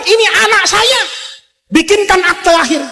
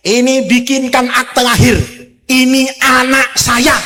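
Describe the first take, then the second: First: High, proud royal command; proud Pharaoh. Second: Casual order. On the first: Pharaoh orders a birth certificate for his baby, proudly in a high voice. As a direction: announce it like a boastful king. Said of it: "Itu Firaun bilang". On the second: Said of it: "Camat Kedungdung, "Sini kamu". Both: Acted.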